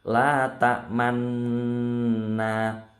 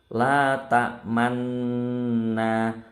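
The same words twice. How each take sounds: No difference in how they are said.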